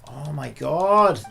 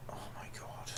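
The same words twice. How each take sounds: First: Exasperated groan. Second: Soft, voiceless, drained whisper; exhausted gamer whispering in disbelief; defeated whisper. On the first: Exasperated at long cutscene. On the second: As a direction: breathe it out like you've given up. Whispered despair after outburst. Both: Real, not acted.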